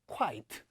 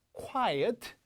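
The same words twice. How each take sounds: First: Quiet said as quite, KWAIT, falling; one-syllable quite. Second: Quiet as KWAI-et, rising; two-syllable quiet. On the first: Teacher contrasting lookalike words, quiet said as quite. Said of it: "quiet처럼 읽는 분들이". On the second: Teacher contrasting lookalike words for students, Quiet as KWAI-et. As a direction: give Quiet two clear syllables, tune up. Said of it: "이게 발음 문제가 아니고". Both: Shown as a demonstration.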